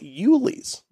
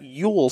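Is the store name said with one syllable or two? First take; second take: two syllables; one syllable. First: The name is said as two syllables. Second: The name is said as one syllable. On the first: The speaker calls it right. "It is Yulee's" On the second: The speaker calls it wrong. "It is not Yule Cigar Company"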